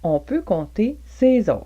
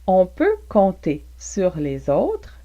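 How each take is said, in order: First: 'Sur les' is shortened into one reduced syllable. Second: Both words 'sur les' are pronounced in full.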